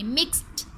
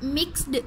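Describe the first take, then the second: First: "मिक्स्ड" ending in a crisp t; correct t ending. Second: "मिक्स्ड" with a voiced d at the end; wrong d ending. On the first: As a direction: say "मिक्स्ड" as mixt. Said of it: "हम इसमें ठ की sound लाएंगे". ("मिक्स्ड" के अंत में ट की आवाज़) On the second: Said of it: "इस तरह से इसमें ड की साउंड नहीं लाएंगे". ("मिक्स्ड" के अंत में ड की आवाज़) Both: Shown as a demonstration.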